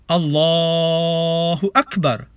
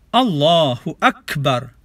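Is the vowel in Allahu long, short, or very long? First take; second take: very long; long. First: The vowel in Allahu is stretched well beyond two beats. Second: The vowel in Allahu is held for two beats. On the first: "bunyi A ini boleh dipanjangkan ikut selera" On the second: "Dari permulaannya dengan takbir"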